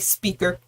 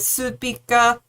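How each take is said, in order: First: It is said with an English pronunciation. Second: It is said with a Korean-style pronunciation.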